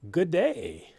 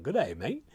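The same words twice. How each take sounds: First: Mock Australian "good day", lightly done; a hammed-up Aussie greeting, Australian twang; terrible Australian accent. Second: Lightly voiced Australian "Good day, mate"; a half-hearted Aussie greeting; bad Australian accent. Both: Shown as a demonstration. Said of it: "That's my terrible, terrible Australian accent".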